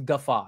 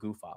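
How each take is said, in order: First: The word ends with an open 'aw' sound. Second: The word ends with a weak 'uh' sound. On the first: The speaker calls it right. "it's guffaw instead of goofa" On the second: The speaker calls it wrong. "of course, I would say it wrong"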